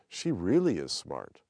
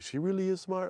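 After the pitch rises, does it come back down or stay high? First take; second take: comes down; stays high. First: The pitch rises, then comes back down. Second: The pitch rises and stays high to the end.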